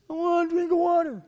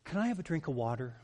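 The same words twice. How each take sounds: First: Much higher, louder whiny demand; demanding child. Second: Quick, softer polite asking; polite child's ask. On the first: A child demanding water from a parent, high, loud and whiny. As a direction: whine it like a bratty child. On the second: A child politely asking a parent for water, soft and quick. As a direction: ask sweetly like a well-mannered child. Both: Shown as a demonstration. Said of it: "you know how tone of voice says everything".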